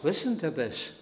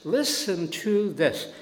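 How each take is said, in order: First: Said in the usual way. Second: Listen to this said high, louder and slowly; stress on Listen. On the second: Shown as a demonstration. Preacher urging congregation to listen closely, emphatic.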